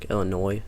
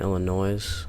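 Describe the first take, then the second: First: The word ends without any s sound. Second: The word ends with an audible s sound. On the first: The speaker calls it right. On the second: The speaker calls it wrong.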